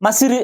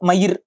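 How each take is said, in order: First: The middle consonant is an s sound. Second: The middle consonant is a y sound. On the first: This is the everyday spoken form. "பேச்சு வழக்குல" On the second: This is the original pure form. "அது யா மயிர்"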